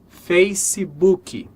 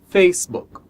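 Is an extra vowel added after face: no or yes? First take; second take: yes; no. First: An extra vowel sound comes between face and book. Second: Face joins book with no added vowel. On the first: The speaker calls it wrong. "essa palavra sendo pronunciada Facebook" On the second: The speaker calls it right. "a pronúncia correta é Facebook"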